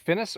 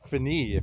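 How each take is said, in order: First: The name is pronounced the English way. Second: The name is pronounced the French way.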